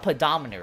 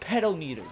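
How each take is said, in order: First: It is said as one word, pedometer. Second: It is said as two words, pedal meter. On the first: The speaker calls it right. "Or I think it's called a pedometer" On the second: The speaker calls it wrong. "I read it as pedal meter"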